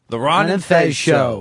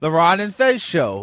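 First: The announcer sounds harsh and edgy. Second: The announcer sounds cheerful and happy. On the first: The speaker calls it right. "It's supposed to be like a shock jock thing" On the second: The speaker calls it wrong. "Our announcer shouldn't sound so happy"

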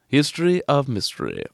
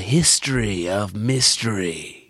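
First: It is said in a British announcer accent. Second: It is said in an American announcer accent. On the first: It sounds like a British network show. "It also sounds like a BBC show" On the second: It sounds like an American network show. "This summer on CBS"

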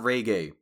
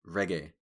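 First: The first syllable sounds like 'ray'. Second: The first syllable does not sound like 'ray'. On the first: The speaker calls it wrong. "Not reggae. ... That's not how you pronounce it. I ain't talking about [name]" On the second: The speaker calls it right. "It's reggae music"

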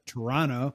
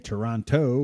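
First: The final T is blended away, Canadian style. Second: The final T is clearly sounded, American style.

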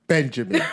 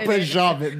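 First: The name is said with an English pronunciation. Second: The name is said with a French pronunciation. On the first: This is the version the show actually used. The speaker calls it right. "They definitely just said, yeah" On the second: This is the version the show did not use. The speaker calls it wrong.

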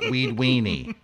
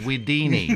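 First: The name ends with a 'weenie' sound. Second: The name ends with a 'dini' sound. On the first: The speaker calls it wrong. "not Weed Weenie" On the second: The speaker calls it right. "it's Weedini"

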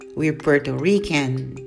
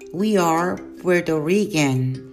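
First: The verb is reduced and joined to the pronoun. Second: The verb is said in full as two words. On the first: "seguida da forma contracta ou forma reduzida" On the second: "sempre a forma completa"

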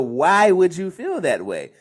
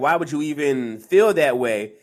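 First: It sounds curious and open. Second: It sounds hostile and dismissive.

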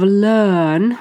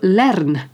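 First: The R is not pronounced; the vowel is long. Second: The R is pronounced after a short vowel. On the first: The speaker calls it right. "which is a long R" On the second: The speaker calls it wrong. "If you do pronounce the R ... which is a short E"

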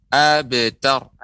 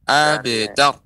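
No difference in how they are said.

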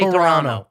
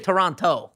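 First: It is pronounced the way locals say it. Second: It is pronounced the way outsiders say it. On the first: The speaker is from the city. The speaker calls it right. "if you're from Toronto. Canada, you say Toronto" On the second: The speaker is not from the city. The speaker calls it wrong. "don't say Toronto"

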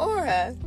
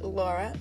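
First: The name starts without the L sound. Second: The name starts with a clear L sound.

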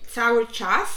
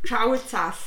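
First: The first word begins with 'c', the second with 'cz'. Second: The first word begins with 'cz', the second with 'c'. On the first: The speaker calls it right. "jak się mówi cały czas" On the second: The speaker calls it wrong. "to ja mówiłam cały czas"

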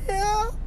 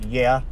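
First: It is a faint, barely voiced word. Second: It is a firm, full, normal voice. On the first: The speaker is too shaken to speak properly. "Like that. It just barely came out" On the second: The speaker is trying to sound fine. "I tried to say something in a normal voice"

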